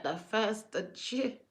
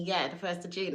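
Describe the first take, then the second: First: Slow, softer, disbelieving rising question; surprised question. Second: Said in the usual way. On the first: Retold or imitated. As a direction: ask it back in mild shock, drawn out. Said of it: "And I was like". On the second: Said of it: "God said to me".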